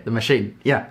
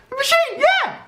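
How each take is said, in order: First: Said in the usual way. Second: Very high squealed cheer; mock excitement. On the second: Hyping the machine to viewers, in high mock excitement. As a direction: squeal it like an over-hyped fan. Hyped repeat of the same words.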